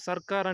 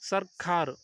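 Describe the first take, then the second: First: The word is said plainly, without extra weight. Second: The word is said with heavy, breathy emphasis. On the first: It belongs to the demons. "మామూలు సర్కార్ అంటే అది రాక్షసులది" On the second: It belongs to the gods. "ఒత్తు కా పలికితే అది దేవతలది"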